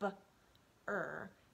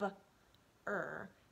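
First: The two sounds are said apart with a break. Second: The same.

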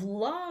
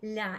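First: The L consonant is hard. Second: The L consonant is soft. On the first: "Instead of la" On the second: "It indicates a soft consonant"

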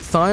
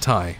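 First: It starts with a 'th' sound, like 'thigh'. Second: It starts with a plain 't' sound, like 'tie'. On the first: "Is it like the part of your leg" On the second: "or is it like the thing you put around your neck?"

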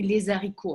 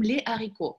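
First: The s of les links into haricots. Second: No s sound links the two words. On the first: The speaker calls it wrong. "не говорим мы «les haricots»" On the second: The speaker calls it right. "а мы говорим «les haricots»"

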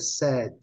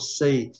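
First: The vowel sounds like the one in 'bed'. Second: The vowel sounds like the one in 'say'. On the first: The speaker calls it right. "Mas a pronúncia desse aqui é said" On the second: The speaker calls it wrong. "99,9% falam say, porque eles são induzidos, né, pela pronúncia do verbo principal"

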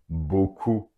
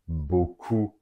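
The two takes are said the same way.

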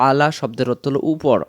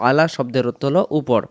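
No difference in how they are said.

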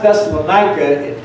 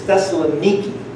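First: The name ends with a 'ka' sound. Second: The name ends with a 'kee' sound. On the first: This is the familiar English form of the name. The speaker calls it wrong. "you know how we say" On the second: This is how local people say the name. The speaker calls it right. "That's how they pronounce it in Greece"

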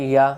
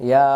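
No difference in how they are said.

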